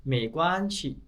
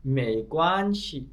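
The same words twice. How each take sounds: First: मे Kuan शी run together; connected, brisker मे Kuan शी; faster take. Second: मे Kuan शी spaced and drawn out; slow, careful मे Kuan शी; slow teaching take. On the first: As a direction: read मे Kuan शी as one quicker phrase. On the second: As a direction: take मे Kuan शी slowly, syllable by syllable. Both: Shown as a demonstration. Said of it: "start fast में पढ़ेंगे".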